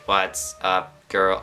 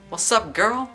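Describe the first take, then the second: First: It is said in an imitated robotic Dalek voice. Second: It is said in a casual voice.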